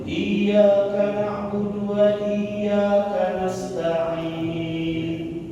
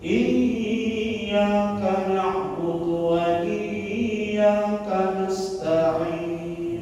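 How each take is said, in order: First: The doubled y is not pressed at all. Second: The doubled y is held for a long time. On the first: "Makna tasdidnya hilang" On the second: "Kalau lama dia akan menjadi gunnah"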